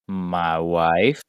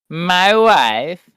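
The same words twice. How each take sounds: First: It is said in a normal voice. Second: It is said in a Borat impression.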